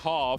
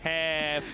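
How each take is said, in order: First: The word is said in a non-American accent. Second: The word is said in an American accent. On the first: The listener misheard it as another word. The speaker calls it wrong. "he's like bald" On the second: The listener understood it. The speaker calls it right. "Is that American accent right there?"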